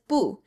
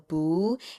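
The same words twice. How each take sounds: First: The pitch falls sharply from high to low. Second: The pitch rises steadily from mid to high. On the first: "bu is a fourth tone going down" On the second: "you're going to take it up like a second tone"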